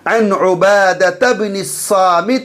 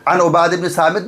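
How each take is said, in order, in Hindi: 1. शब्द के आख़िरी स्वर साफ़ बोले जाते हैं। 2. शब्द के आख़िरी स्वर गिराए जाते हैं। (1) "एराब को बिल्कुल एराब जाहिर करेंगे, साफ पढ़ेंगे" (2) "नहीं पढ़ेंगे"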